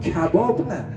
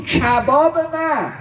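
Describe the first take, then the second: First: Said in the usual way. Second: Dragging out کباب نه with a preacher's reproach; drawn-out emphatic no. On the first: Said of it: "گفت". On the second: Retold or imitated. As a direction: lean hard on کباب نه, slowing right down.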